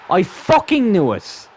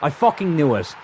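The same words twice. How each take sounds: First: Slow, high, loud angry yell; loud, drawn-out exasperated cry; angry outburst. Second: Real annoyance, slightly raised; irritated first reaction; annoyed. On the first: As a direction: erupt in real anger, dragging the curse out. Gamer erupts at conceded goal. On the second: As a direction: curse in exasperation, holding back from shouting. Gamer reacts to conceding goal. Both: Real, not acted.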